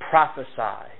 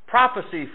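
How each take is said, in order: First: The last syllable sounds like 'sigh'. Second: The last syllable sounds like 'see'. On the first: The speaker calls it right. "It's the correct pronunciation" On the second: The speaker calls it wrong. "the congregation to, to a man and a woman will say"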